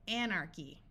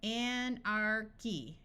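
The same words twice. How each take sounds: First: Said in the usual way. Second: Slow demo. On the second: Shown as a demonstration. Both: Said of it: "words where C H sounds like the letter K".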